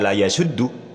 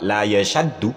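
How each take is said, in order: First: The middle vowel is pronounced as 'u'. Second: The middle vowel is pronounced as 'a'. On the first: The speaker calls it right. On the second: The speaker calls it wrong.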